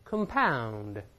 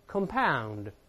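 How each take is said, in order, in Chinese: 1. 重音在第二个音节。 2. 重音在第二个音节。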